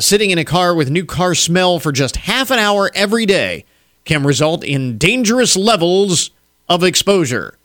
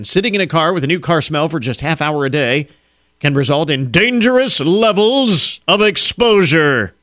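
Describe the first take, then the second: First: It is read flatly, without special emphasis. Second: 'Dangerous levels of exposure' gets heavy emphasis.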